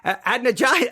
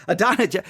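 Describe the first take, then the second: First: Adonijah as AD-nuh-jah, raised pitch; trying out pronunciation. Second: Adonijah as uh-DON-uh-juh; trying out pronunciation. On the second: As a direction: test Adonijah with stress on DON. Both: Shown as a demonstration. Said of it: "Which one is it?".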